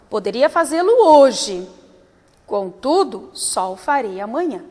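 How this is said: There is a long pause before contudo.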